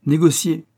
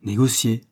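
First: High, loud single word; curt announcement. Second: A touch of failing voice; lightly faltering, less forceful echo. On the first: Director to young client, curt and raised. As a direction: drop the word like a blow. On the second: Stunned young man echoes the director, faintly faltering. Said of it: "balbutia-t-il d'une voix défaillante". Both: A narrator's reading.

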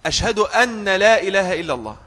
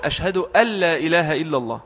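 First: "أن لا" said anna la; doubled nun error. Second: "أن لا" merged into alla; preferred idgham. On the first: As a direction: keep a doubled n in أن before لا. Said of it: "بتشديد النون". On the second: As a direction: drop the n of أن into a doubled l. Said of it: "فالأفضل له أن يقول". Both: Shown as a demonstration.

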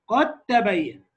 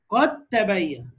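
First: Said in the usual way. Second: قد تبين slowed, دال dissolved into تاء; slow idgham demo. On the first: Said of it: "الدال في التاء،". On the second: Shown as a demonstration. Teacher showing students the dal vanishing, slowly. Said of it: "مفيش دال خلاص،".

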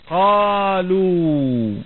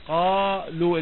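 First: Stretched out. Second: Said in the usual way. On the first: Shown as a demonstration.

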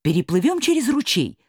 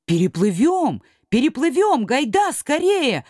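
First: Said in the usual way. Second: Eager shout. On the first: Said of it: "предложил доктор". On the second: Acted. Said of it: "ответили крошки".

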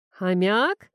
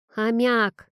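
First: «Хомяк?» asked with a rising puzzled tune; puzzled question. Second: «Хомяк!» said as a sharp falling correction; firm correction. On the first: Friend echoing the word, puzzled rising «Хомяк?». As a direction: repeat «Хомяк?» as an unsure rising echo. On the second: Girl correcting the guest about her pet, firm falling «Хомяк!». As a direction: snap back «Хомяк!» with a firm fall. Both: A narrator's reading. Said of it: "переспросил Лёха".

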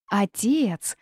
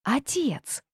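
First: Mild raised call. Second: Higher, thinner call for father. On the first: Girl calls her father in the night forest, calling out. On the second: Girl calls her father once more, high calling. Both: A narrator's reading. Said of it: "громко позвала она".

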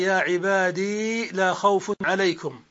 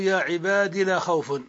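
First: "عبادي" with the final ī held long. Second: "عبادي" with a short i ending; dropped final ya. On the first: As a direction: draw out the ee ending of "عبادي". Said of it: "بإثبات الياء ساكنة". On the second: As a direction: cut the ee of "عبادي" down to a brief kasra. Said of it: "يعني بحذف الياء". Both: Shown as a demonstration.

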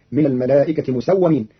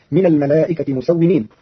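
First: "مسومين" as musawwamin, open a on the waw; مسومين بفتح الواو. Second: Said in the usual way. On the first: Shown as a demonstration. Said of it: "بالفتح في الواو". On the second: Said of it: "قرأ قالون كلمة".

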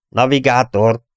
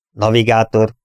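First: Higher, more pressing hail; insistent raised summons; repeated call. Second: Slightly raised call to a crewman; captain's insistent hail. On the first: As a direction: call the silent navigator, pitched up. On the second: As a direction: call the navigator, a bit louder. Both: A narrator's reading. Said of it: "hívta Dennis újra".

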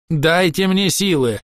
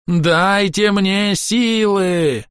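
First: High, slow plea for strength; desperate elf crying out; pleading cry. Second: Much higher, very slow, stretched wail; desperate elf wailing in a strange voice; drawn-out wail. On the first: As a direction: beg the trees for power. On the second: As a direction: stretch the cry out to breaking. Elf begging for strength. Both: A narrator's reading.

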